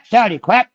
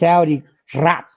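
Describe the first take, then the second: First: The last word is said without an R. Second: The last word is said with a rolled R.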